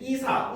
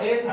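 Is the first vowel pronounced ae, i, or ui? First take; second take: i; ae. First: The first vowel is a plain i sound. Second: The first vowel is an ae sound. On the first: "이사, ... 애사 이런 거 안 됩니다" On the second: "애사 이런 거 안 됩니다"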